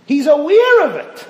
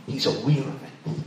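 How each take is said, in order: First: Repeated louder and higher, aware punched and falling; preacher driving home the point, He's aware of it loudly; emphatic shout. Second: Said in the usual way. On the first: Shown as a demonstration. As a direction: call out He's aware of it with force.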